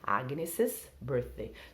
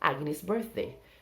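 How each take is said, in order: First: An extra 'iz' syllable follows the name. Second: No extra syllable follows the name. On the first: "então a pessoa fala os dois S's" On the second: "Ou só Agnes birthday"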